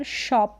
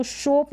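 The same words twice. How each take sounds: First: शॉप as "shawp"; शॉप with a short open vowel. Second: शोप as "shohp"; शोप with a rounded long o; wrong long o. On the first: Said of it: "शॉप पढ़ें". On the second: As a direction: say शोप with a closed "oh". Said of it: "शोप ना पढ़कर". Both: Shown as a demonstration.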